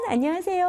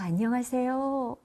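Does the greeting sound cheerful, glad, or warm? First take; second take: glad; warm. First: It is said in a glad, welcoming tone. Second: It is said in a warm, caring tone.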